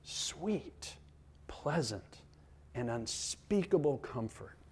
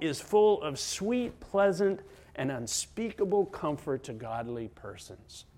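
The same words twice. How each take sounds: First: Very soft, spaced-out words; hushed savouring. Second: Emphatic quotation. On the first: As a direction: savour each word quietly. Savouring the quoted words again. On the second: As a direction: read out the quote with emphasis. First reading of quoted article. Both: Real, not acted.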